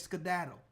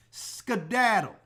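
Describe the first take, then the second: First: Dismissive. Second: "Skedaddle" stretched long and slow; slow, dismissive "Skedaddle"; drawn-out skedaddle. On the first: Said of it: "And I said it just like that". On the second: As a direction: drag out "Skedaddle" to shoo her off. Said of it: "is what I told her". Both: Retold or imitated.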